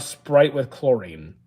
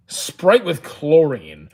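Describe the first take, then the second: First: Said in the usual way. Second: Very slow, drawn-out repeat; slow, incredulous echo of a viewer's question; drawn-out disbelief. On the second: Real, not acted. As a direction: stretch out each word in disbelief.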